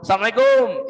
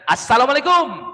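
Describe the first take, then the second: First: It is pronounced with casual Indonesian-style sounds. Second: It is pronounced with careful Arabic-style sounds. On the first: It is an everyday greeting between friends. The speaker calls it wrong. "Itu bahasa Indonesia" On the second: It carries the meaning of a prayer. The speaker calls it right. "Kalau mau singkat"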